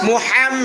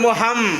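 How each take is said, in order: First: The h is pressed hard in the throat. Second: The h is light, without throat pressure. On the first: The speaker calls it right. "এই যে হা চাপ দিতে হবে" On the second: The speaker calls it wrong. "যদি কেউ বলে মোহাম"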